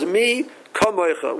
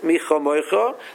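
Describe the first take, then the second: First: The second consonant is a hard, stopped k sound. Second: The second consonant is a soft, breathy kh sound. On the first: "with a negation in it" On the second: "the Chaf, is Refuya"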